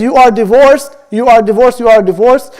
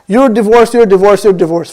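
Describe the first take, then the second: First: "You are divorced" three times as distinct statements, each ending with a slight rise; each one separate. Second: "You're divorced" three times in quick succession, stepping down in pitch; repeated for emphasis. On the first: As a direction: give every "You are divorced" its own full weight, evenly pitched. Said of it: "each one intending a separate divorce". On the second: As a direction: run "You're divorced" together as one emphatic, falling repetition. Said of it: "he's intending emphasis". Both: Shown as a demonstration.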